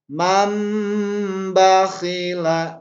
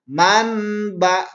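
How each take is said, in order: First: The n sound is concealed before b. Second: The n sound is pronounced clearly before b. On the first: The speaker calls it right. "Tapi harus disamarkan nunnya" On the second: The speaker calls it wrong. "Jadi jangan dibaca man ba. Gak boleh dibaca itu"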